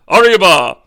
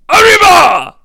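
First: It is said with little enthusiasm. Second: It is shouted with lots of enthusiasm.

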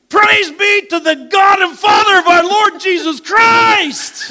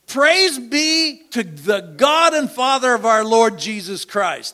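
First: It is proclaimed with exclamatory energy. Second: It is read out plainly, without exclamation.

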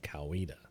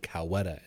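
First: It uses the local pronunciation of the name. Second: It uses an outsider's pronunciation of the name. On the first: The speaker is from the area. The speaker calls it right. "instead of Coweta" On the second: The speaker is not from the area. The speaker calls it wrong. "you said Coweta"

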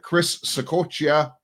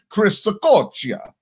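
First: The name is said plainly, without an Italian accent. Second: The name is said with an Italian accent.

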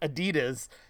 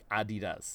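First: It is said the American way. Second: It is said the German way.

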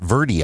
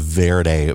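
First: It is said the way locals say it. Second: It is said like the Spanish word. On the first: The speaker calls it right. "Everybody here calls it Verde" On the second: The speaker calls it wrong. "this area is not called the Verde Valley"

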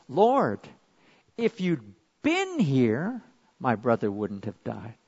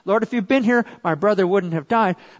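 First: It is said in a hurt, reproachful tone. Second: It is said in a calm, polite tone. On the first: She is asking why help did not come in time. "what she really said was" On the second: It is a respectful statement of fact. "I'm sure she said it in a respectful and polite way"

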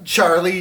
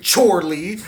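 First: The name is said in a plain, normal way. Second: The name is said in an exaggerated, overacted way.

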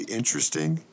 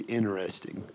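First: The T sound in the middle is pronounced. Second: The T sound in the middle is dropped. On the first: "I say interesting" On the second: "you're not pronouncing the T"

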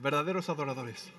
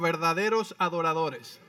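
First: It is said faster. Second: It is said at a normal pace.

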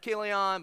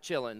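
First: The name starts with a k sound. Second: The name starts with a ch sound. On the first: This is the likely accepted pronunciation. "I think it's pronounced Kilion" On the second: This is a playful preferred pronunciation. "I'm going to pronounce it Chillin because I like that better"

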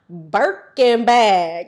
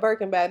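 First: The phrase is said with strong, deliberate emphasis. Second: The phrase is said lightly and casually. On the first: It is a firm, wholehearted answer. "They said, Birkin bag" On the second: It is a passing, offhand answer. "it wasn't just like, oh yeah, a Birkin bag"

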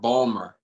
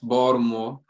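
First: The middle syllable is dropped, sounding like 'Balmer'. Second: The middle is said with a D sound. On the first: This is an older regional way of saying it. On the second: This is how younger local speakers say it. "That's Baltimore with a D"

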